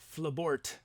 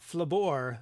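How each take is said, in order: First: It is said plainly, with the final sound. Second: It is said French-style, without the final sound. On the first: The speaker calls it right. "I was mispronouncing your name for so long" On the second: The speaker calls it wrong. "Not Flabor, the knight from France"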